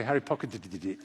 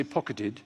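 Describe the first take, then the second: First: "pocketed it" garbled with stuttered did-did syllables; tongue-twister collapse at the end of "pocketed it"; tongue-tied stumble. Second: Said in the usual way. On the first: Shown as a demonstration. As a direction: trip up on "pocketed it", repeating the d sound. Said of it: "but I can't say". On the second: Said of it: "I can say pocketed".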